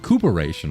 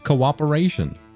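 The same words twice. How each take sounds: First: The word is sounded out by regular spelling rules. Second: The word is said with its usual accepted pronunciation. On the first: The speaker calls it wrong. "if you're following standard rules, it would be cooperation" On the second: The speaker calls it right. "But no, it's cooperation"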